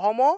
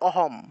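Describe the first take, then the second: First: The final m carries a full vowel. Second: The final m is a bare consonant. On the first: "প্রথমটা হলো অহম; মটাকে পূর্ণ উচ্চারণ করতে হবে" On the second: "দ্বিতীয়টা হলো অহম, কারণ হসন্ত আছে"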